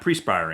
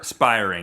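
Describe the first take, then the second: First: The word begins with the sound 'pre'. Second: The word begins with the sound 'per'. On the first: The speaker calls it wrong. "It is not prespiring" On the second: The speaker calls it right.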